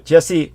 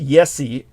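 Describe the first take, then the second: First: The name begins with a J sound. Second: The name begins with a Y sound. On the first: The speaker calls it right. "So Jesse Wienen is what I think it would be" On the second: The speaker calls it wrong. "it could be pronounced Yesi, or if you if but that's more Slavonic"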